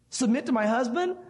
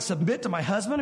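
First: "Submit to my husband?" higher, "husband" rising; second take pitched up in protest; rising indignation. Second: Said in the usual way. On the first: Retold or imitated. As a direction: push the disbelief up. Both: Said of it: "maybe you're saying".

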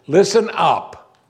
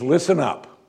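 First: Slow, louder, higher "Listen up" with the stress on "listen"; emphatic command. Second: Said in the usual way. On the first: Shown as a demonstration. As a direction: hit "Listen" hard and draw it out slowly. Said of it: "Let me give you two in English". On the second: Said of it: "means listen up".

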